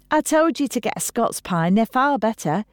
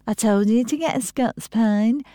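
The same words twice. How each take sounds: First: Higher-pitched I-told-you-so; told-you-so nagging. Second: Higher-pitched mimicry of a sister; mocking parody. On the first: Acted. Gina scolding her sister about pine needles, nagging. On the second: Hannah mouthing her sister's words back, mocking parody. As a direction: parrot her nagging back at her. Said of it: "into a parody of her sister's".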